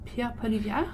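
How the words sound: It is said with French sounds and rolled Rs. "you said it in the most French accent way"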